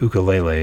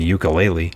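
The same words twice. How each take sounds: First: Ukulele is said a different, non-mainland way. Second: Ukulele is said the common mainland US way. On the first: "the pronunciation that he educated me on" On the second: "as we in the United States, kind of the mainland, call it"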